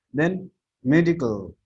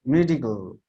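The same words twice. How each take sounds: First: Medical with me stressed, then falling. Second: Medical said again, me stressed. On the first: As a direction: punch the first syllable of medical. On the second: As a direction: hit me in medical, fall after it. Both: Shown as a demonstration. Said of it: "You are giving a stress on the me".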